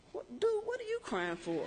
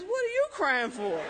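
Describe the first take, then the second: First: High, laughing through the question; laughing disbelief. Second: Louder, higher, playful turn-around; mock indignant. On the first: Retold or imitated. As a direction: laugh while asking him why he cries. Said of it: "And I said". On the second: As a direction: throw the question back at her. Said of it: "he says".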